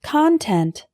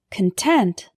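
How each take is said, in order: First: CONTENT stressed on the first syllable; noun pronunciation. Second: CONTENT stressed on the second syllable; adjective pronunciation. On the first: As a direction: say Content as KON-tent. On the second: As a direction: say Content as kun-TENT. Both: Shown as a demonstration. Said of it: "Say it with me".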